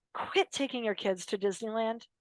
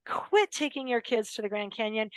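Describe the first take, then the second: First: Whispered advice. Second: Said in the usual way. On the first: Real, not acted. Speaker confiding advice to parents in a whisper. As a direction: lean in and whisper it like a secret tip.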